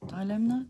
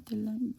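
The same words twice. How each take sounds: First: "Dilemma" with a long first vowel, DYE-lem-ma. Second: "dilemma" with a short first vowel, dih-LEM. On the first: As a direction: try "Dilemma" starting like "dye", questioning rise. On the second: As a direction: try "dilemma" starting with a short "dih", questioning rise. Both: Shown as a demonstration. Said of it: "I don't know how you say it".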